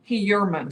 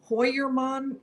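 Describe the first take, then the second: First: The name is said the anglicized way. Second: The name is said the German way. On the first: "the way he says his name is Heuermann" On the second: "in German, Heuermann might be a better way to pronounce it"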